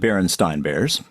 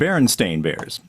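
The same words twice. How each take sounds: First: The second syllable sounds like 'stine'. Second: The second syllable sounds like 'stain'. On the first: This is the name as people remember it. "It really was the" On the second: This is the name as it is today. "But in this universe, it's the"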